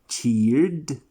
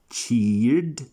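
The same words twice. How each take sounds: The two takes are said the same way.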